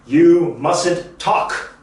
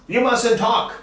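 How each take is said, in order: First: You mustn't talk, very slow and deliberate; slow model sentence. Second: You mustn't talk, higher and quicker, stress on mustn't; brisk higher repeat. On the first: Teacher modelling the sentence slowly for students to repeat. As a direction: drill it slowly so the class can follow. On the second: Teacher repeating the model line higher for the class. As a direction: bounce it back up brightly. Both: Shown as a demonstration. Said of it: "Say it with me".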